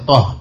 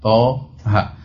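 First: It is said as one short syllable. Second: It is said as two syllables, letter by letter. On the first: It is read as a single word. The speaker calls it wrong. "bukan dibaca toh" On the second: It is read as separate letter names. The speaker calls it right. "tapi dibaca toha"

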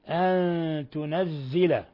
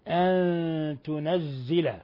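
The two takes are said the same way.

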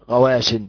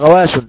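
First: The word ends with the short -in nunation. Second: The word ends without the short -in nunation. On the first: The speaker calls it right. "قول ايه؟ غواش" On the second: The speaker calls it wrong. "ما ينفعش تقول غواش"

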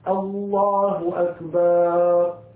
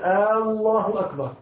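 First: The vowel after b in the second word is lengthened. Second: The opening vowel of the first word is lengthened. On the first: "من الناس من يشبع حركة الباء يقول" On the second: "أن لا يمد الهمزة في لفظ الجلالة، كأن يقول"

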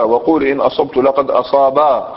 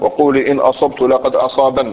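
First: The final vowel is drawn out long. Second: The line ends with a short final n. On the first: This is the poet's original melodic delivery. "مبنية على حرف الباء مع المد" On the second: This is how some tribes recite it to avoid elongation. "لكي لا يترنموا، لكي لا يمدوا"

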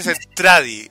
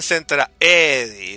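First: There is no e sound before 'di'. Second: An e sound comes right before 'di'. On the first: This is the name as used in the Japanese version. "en la versión japonesa se dice Centradi" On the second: This is the name as used in Robotech. "en Robotech le dicen Centraedi, con una E"

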